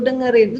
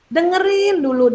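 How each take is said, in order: First: Said in the usual way. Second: "Dengerin" raised high and stressed; emphatic advice. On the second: Shown as a demonstration. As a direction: hit "Dengerin dulu" high and firm. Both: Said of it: "Tapi ingat".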